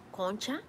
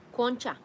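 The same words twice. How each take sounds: First: ¿Concha? soft and rising, a puzzled question. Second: Concha said flat and falling, like a word just read; just read Concha out flatly; flat statement. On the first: Streamer puzzling over a viewer's word, rising question. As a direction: ask ¿Concha? back as if you've never heard it. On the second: Reading the unknown word from chat, flat and falling. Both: Real, not acted.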